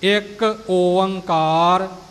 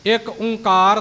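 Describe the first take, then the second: First: The middle has two vowels, O-ang: Oankar. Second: The middle is a single nasal o: Onkar. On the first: The speaker calls it right. "ਇਉਂ ਇਹ ਸ਼ੁੱਧ ਉਚਾਰਨ ਹੋਵੇਗਾ ਜੀ" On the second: The speaker calls it wrong. "ਇੱਕ ਓਂਕਾਰ ਨਹੀਂ"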